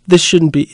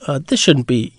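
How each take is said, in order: First: Exasperated Pilate. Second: Said in the usual way. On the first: Retold or imitated. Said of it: "perhaps somewhat exasperated". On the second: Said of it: "is to suggest with the verse".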